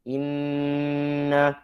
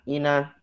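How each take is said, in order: First: The n sound is doubled and held long. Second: The n sound is single and short. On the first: The speaker calls it right. "lafaz inna" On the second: The speaker calls it wrong. "menghilangkan satu huruf nun"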